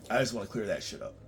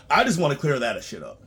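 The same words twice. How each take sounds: First: Said in the usual way. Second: Louder first take. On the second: Real, not acted.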